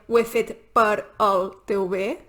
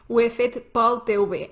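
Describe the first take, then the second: First: Per and el are said as two words. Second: Per and el merge into one syllable. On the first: The speaker calls it wrong. "No diem" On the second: The speaker calls it right. "sinó que diem pel"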